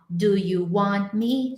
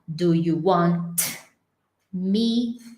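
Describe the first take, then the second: First: The T in 'want' is held, not released. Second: The T in 'want' is released with a burst. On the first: The speaker calls it right. "ela vai segurar ele sinistramente" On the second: The speaker calls it wrong. "ela não vai fazer assim... Ela não vai explodir"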